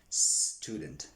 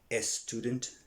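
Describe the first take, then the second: First: The word starts directly with the s sound. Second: An extra e vowel comes before the s. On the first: The speaker calls it right. "say student" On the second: The speaker calls it wrong. "Don't say a student"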